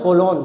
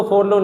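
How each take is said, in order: First: "फॉलोन" with no r before the l; "फॉलोन", first syllable open, r dropped; silent r. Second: "फॉरलोन" with the first r sounded; "फॉरलोन", r pronounced before the l; wrong reading. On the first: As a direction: say "फॉलोन" as fo-lon. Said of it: "इसमें ये आर silent रहता है". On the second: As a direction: say "फॉरलोन" as for-lon. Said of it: "इसको फॉरलोन नहीं पढ़ते". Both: Shown as a demonstration.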